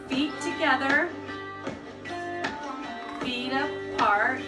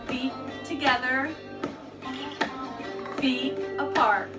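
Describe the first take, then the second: No difference in how they are said.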